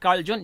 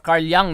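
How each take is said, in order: First: The name begins with a J sound. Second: The name begins with a Y sound. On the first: The speaker calls it wrong. "it's not Carl Jung" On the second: The speaker calls it right. "It's pronounced as Y"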